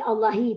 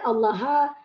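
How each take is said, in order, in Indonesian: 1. Kata ini diakhiri vokal i. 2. Kata ini diakhiri vokal a. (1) "tak boleh" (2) "Tak boleh"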